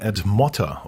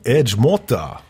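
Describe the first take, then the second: First: The name is said with a plain German pronunciation. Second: The name is said with a Brazilian Portuguese pronunciation.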